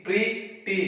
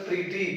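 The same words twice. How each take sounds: First: PRETTY broken into two beats, "pre - tty"; split into syllables. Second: Said in the usual way. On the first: Shown as a demonstration. ("pretty" को दो हिस्सों में तोड़कर: प्रि - टी) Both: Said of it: "This is a two syllable words".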